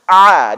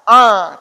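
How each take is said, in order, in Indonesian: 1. Bunyinya keluar dari tengah tenggorokan. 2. Bunyinya diarahkan ke dalam hidung. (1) "tapi a di sini dia, pangkal di ujung di tengah tenggorokan" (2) "bukan a"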